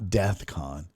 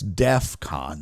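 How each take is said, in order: First: The first syllable ends with a th sound. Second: The first syllable ends with an f sound. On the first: The speaker calls it wrong. "not DEATHCON" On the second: The speaker calls it right. "It's DEFCON"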